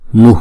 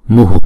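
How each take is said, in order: First: The word ends in a light breathy h only. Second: The final h is followed by an echoed u. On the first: This is how the word is read in this mantra. "chữ h nhỏ ngoài sau thôi là. Không? Như cái hơi thôi" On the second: This is how the word is read standing alone. "nếu mà đứng một mình thì chúng ta đọc là mu"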